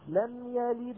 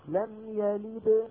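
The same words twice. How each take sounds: First: The final d is joined on with a light echo. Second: The final d ends the phrase with a strong echo. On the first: "هذه صغرى" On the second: "هذه كبرى"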